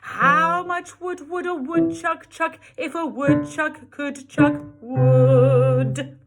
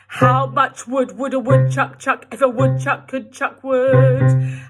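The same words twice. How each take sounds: First: It is said in a very nice, friendly tone. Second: It is said in a cross, annoyed tone.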